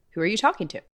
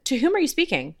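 First: Said in the usual way. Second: Mildly raised, mock-proper question; a hint of prim formality; stiff formal wording. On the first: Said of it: "I would say". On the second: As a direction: play the overly correct speaker. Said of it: "I would not say to my husband".

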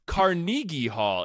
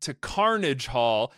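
First: Slow "Carnegie Hall", said with the usual name; correct Carnegie. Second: Slow "Carnage Hall", said like the word carnage; mispronounced Carnage. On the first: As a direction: say "Carnegie" properly, slowly. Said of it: "they're like". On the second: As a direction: stretch out "Carnage" as in bloodshed. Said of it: "some people refer it to Carnage Hall". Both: Retold or imitated.

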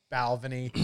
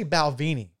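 First: Balvenie as BAL-vuh-nee; local pronunciation. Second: Balvenie as bal-VEE-nie; mistaken pronunciation. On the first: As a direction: stress the first syllable of Balvenie. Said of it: "that's not how they say it". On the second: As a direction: stress the middle syllable of Balvenie, long "vee". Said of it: "I was saying it wrong". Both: Shown as a demonstration.

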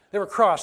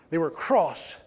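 First: Louder British "They were cross." with "cross" punched; British accent. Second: A prim British "They were cross," with a crisp "cross"; British accent. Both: Shown as a demonstration. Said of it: "You gotta hear the accent in there".

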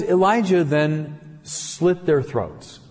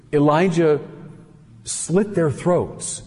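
First: Slow, flat, deliberate delivery; laconic statement. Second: Slow, weighted, stress on their; heavy repeat. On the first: Preacher reading the verse slowly and laconically. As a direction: say it bluntly, word by word. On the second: Preacher repeating the verse slower, with emphasis. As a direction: lean on every word, slowly. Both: Shown as a demonstration. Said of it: "stated very laconically".

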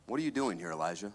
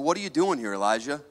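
First: "What are you doing here, Elijah?" said much softer, as a hushed gentle voice; the Lord's still small voice, hushed and soft; gentle whisper. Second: Said in the usual way. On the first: Acted. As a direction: let the question fall to a soft hush. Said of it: "came a gentle whisper". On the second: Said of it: "He said".

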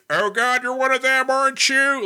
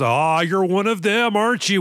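First: Alan Rickman. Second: Hammed-up, higher-pitched American voice; mock a bad American accent; fake American accent. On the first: Retold or imitated. British actor posing as a hostage, mimicked in high voice. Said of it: "going to sound like this". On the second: Villain bluffing the hero, fake American accent. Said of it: "in this fake American accent".

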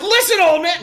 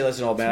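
First: Tough talk. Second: Said in the usual way. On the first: Pretend. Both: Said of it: "No, I didn't say".

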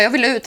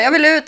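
First: Said in the usual way. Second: Higher and louder, pushing back; insist, raise the stakes. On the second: Retold or imitated. To Patrik at the clinic, a louder insistent repeat.

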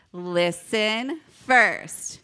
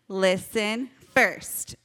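First: Very slow, drawn-out call-and-response; leading group repeat. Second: Slow, measured call-and-response; leading group repeat. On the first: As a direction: stretch out each word so everyone joins. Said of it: "Let's try one more time". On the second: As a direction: say it slowly for the kids to join. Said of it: "Can you guys say it with me". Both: Shown as a demonstration.

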